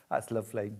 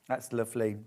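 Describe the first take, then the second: First: Quick, laughing "That's lovely" through a giggle. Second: Said in the usual way. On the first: Real, not acted. Host admiring a fabric, laughing as she says it. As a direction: toss it off with a laugh.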